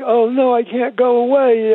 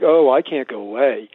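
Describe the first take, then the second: First: It sounds dismayed and regretful. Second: It sounds content and unbothered.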